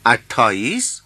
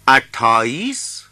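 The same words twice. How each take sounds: First: اٹھائیس repeated as athaais, rising; اٹھائیس said again as athaais; Hindi pronunciation. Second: اٹھائیس said as athaais with a rise; اٹھائیس pronounced athaais; Hindi pronunciation. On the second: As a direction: model اٹھائیس as athaais, rising. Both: Shown as a demonstration. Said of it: "متوجه باشید به تلفظ".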